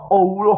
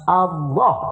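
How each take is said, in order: First: The vowel is said with rounded, protruding lips. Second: The vowel is said with flat, unrounded lips. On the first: The speaker calls it wrong. "Eta gara-gara sungut bibir nu handap gacong kaluhur" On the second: The speaker calls it right. "bibir nu handap ulah ilu gacong. Tahan"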